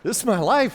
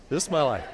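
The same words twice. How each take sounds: First: Exasperated cry. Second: Said in the usual way. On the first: Real, not acted.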